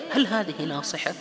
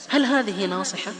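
The two takes are said the same way.

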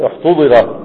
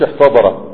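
First: احتضر said with u then i, "uhtudira"; valid passive form. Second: احتضر said with a-vowels, "ihtadara"; rejected active form. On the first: Teacher confirming a passive-only verb, passive pronunciation. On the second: Teacher saying this form doesn't exist, active pronunciation. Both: Shown as a demonstration. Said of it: "ما فيش احتضر".

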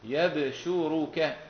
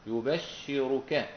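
First: يبشرك as slow yab-shu-ru-ka; light-sheen reading. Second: يبشرك as slow yu-bash-shi-ru-ka; doubled-sheen reading. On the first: Teacher giving Hamza's reading, يبشرك recited yab-shu-ru-ka. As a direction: fatha on ya, bouncing b, single sh in يبشرك. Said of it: "فأصبحت الكلمة إيش عندهم". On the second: Teacher summing up the rule, يبشرك recited yu-bash-shi-ru-ka. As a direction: damma on ya, held double sh in يبشرك. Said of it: "وأثقل أي شدد". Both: Shown as a demonstration.

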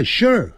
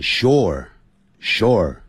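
First: Quick, high "sure" with a fall; said quickly. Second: Slow, stretched "sure"; said slowly. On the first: Teacher showing how foreigners say it, quickly. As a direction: say "sure" fast, as one short syllable. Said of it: "还有老外念快". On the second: Teacher showing the careful version of the word, slowly. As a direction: draw out each "sure" with a pause between. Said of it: "念慢". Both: Shown as a demonstration.

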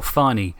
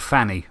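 First: Farney said with a long AH. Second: Fanny said with a short flat A. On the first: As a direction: say Farney with the A of "father". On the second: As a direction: say Fanny with the A of "cat". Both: Shown as a demonstration. Two pronunciations of one name.

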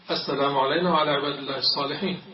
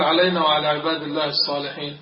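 First: Fast tashahhud, علينا rushed with no alif; hurried recitation. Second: علينا said as علينَ, with the long alif dropped; swallowed alif. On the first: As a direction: gabble it like a rushed worshipper. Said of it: "هكذا يقولون مستعجلين". (تقليد المستعجل بسرعة) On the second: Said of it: "ما طلعت الألف بالمرة". (حذف الألف في "علينا") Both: Retold or imitated.

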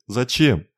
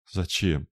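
First: "Зачем?" flung out higher and louder with a falling end; the third "why", bursting out in tears; tearful outcry. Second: Said in the usual way. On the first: A narrator's reading. Lorna, in tears, demands why Raine did it, crying out. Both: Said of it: "Слёзы потекли из глаз Лорны".

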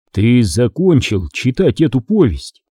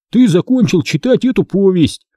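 First: Said in the usual way. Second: High, emphatic mock announcement; indignant quoting. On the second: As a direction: quote it pitched up, in disbelief. Boy indignantly quotes book's ending. (возмущённо цитируя, высоким голосом)

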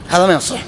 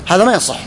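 No difference in how they are said.

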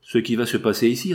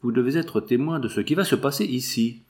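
First: "ici" lifted at the end, as a question; questioning echo. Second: Said in the usual way. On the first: A narrator's reading. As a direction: echo it back, rising on "ici". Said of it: "répéta le jeune avocat". (répété en question, « ici » montant)

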